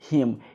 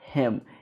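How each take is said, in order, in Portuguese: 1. A vogal é um som 'ee' tenso. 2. A vogal é um som frouxo, perto do 'e'. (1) "eu não falo it ou him" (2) "um som um pouco diferente, até mais parecido com a letra E"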